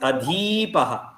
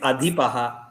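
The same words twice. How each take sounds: First: The vowel after dh is long. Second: The vowel after dh is short. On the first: The speaker calls it wrong. "Dirgha means adhipaha" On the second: The speaker calls it right. "Hrasva means adhipaha"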